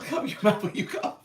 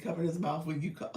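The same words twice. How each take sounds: First: Louder, laughing reminder; laughing scold. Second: Said in the usual way. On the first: Shown as a demonstration. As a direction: laugh as you repeat it louder. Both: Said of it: "You said".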